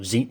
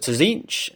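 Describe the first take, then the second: First: The word begins with an 's' sound. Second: The word begins with a 'ts' sound. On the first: The speaker calls it right. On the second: The speaker calls it wrong.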